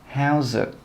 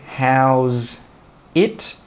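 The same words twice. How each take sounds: First: The words are linked together. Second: The words are said separately. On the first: The speaker calls it right. "We join them together as well and we say how's it" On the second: The speaker calls it wrong. "we don't say how's it"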